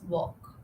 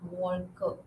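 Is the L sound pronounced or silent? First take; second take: silent; pronounced. First: The L sound is silent. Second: The L sound is pronounced. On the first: The speaker calls it right. "It's walk" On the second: The speaker calls it wrong. "It's not walker"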